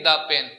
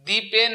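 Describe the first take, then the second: First: "the pen" with the article said DAA; thuh before consonant. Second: "the pen" with the article said DEE; thee before consonant. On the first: Teacher posing the other option, "the pen" as daa pen. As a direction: say "the pen" as duh pen. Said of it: "কনসোনেন্টের আগে বসতে হলে হবে দা". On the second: Teacher testing students, "the pen" as dee pen. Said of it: "ভাওয়েলের আগে থাকলে তো উচ্চারণ হবে". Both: Shown as a demonstration.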